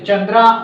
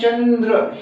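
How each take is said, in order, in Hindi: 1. शब्द का अंत लंबे 'a' स्वर से होता है। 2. शब्द का अंत बिना किसी अंतिम स्वर के होता है। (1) "चंद्रा न पढ़ के" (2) "हम चंद्र ही पढ़ेंगे"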